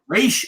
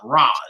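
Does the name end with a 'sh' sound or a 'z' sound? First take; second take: sh; z. First: The name ends with a 'sh' sound. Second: The name ends with a 'z' sound. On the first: The speaker calls it right. "it's Raish Al Ghul" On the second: The speaker calls it wrong. "not Raz"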